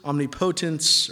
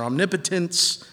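First: Omnipotence with a long O, stressed on PO; stress on POTENCE. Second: Omnipotence stressed on NIP, with a reduced third syllable. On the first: Preacher trying out where the emphasis goes, stress on PO in omnipotence. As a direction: say omnipotence as omni-POH-tence. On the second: Preacher offering the other emphasis, stress on NIP in omnipotence. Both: Shown as a demonstration. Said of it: "put the emphasis on what syllable".

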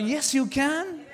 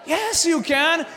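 First: Said in the usual way. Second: Shouted repeat. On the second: Acted. Pastor to congregation, a shouted yes you can. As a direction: shout it, higher and louder.

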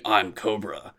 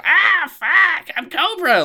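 First: Said in the usual way. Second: Much higher, louder screechy villain squeal; high-pitched Cobra. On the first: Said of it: "generic fucking". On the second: Shown as a demonstration. Fan showing the Cobra he wants, high and loud. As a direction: squeal it like a petty cartoon villain. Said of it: "I want high-pitched piece of shit".

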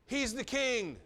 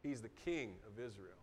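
First: High, loud scornful jeer; a preacher acting out the mockers' taunt; mocking. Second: Low, soft declaration of truth; the preacher affirming the same words as true; sincere. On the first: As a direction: throw it out as a taunt. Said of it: "they're like". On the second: Shown as a demonstration. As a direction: state it quietly as fact. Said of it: "That statement's true".

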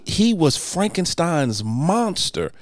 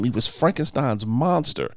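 First: Frankenstein's monster said slowly, each word weighed; stress on monster. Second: Monster falls at the end, said slowly; stress on monster. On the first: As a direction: spell out he was Frankenstein's monster. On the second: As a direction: land hard on monster. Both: Shown as a demonstration. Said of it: "correcting a pet peeve".

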